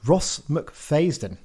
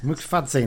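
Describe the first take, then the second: First: The surname's middle sounds like 'fays'. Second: The surname's middle sounds like 'fadz'. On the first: The speaker calls it wrong. "I've pronounced that wrong" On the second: The speaker calls it right. "that's probably the one"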